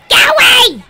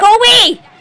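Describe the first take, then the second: First: It is said in a put-on toad voice. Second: It is said in a normal voice.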